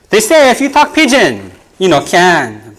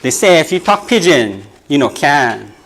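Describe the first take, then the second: First: Poem refrain. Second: Said in the usual way. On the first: Shown as a demonstration. Poet opens the group poem to the crowd, declaiming. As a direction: launch the refrain like a chant. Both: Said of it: "It's called".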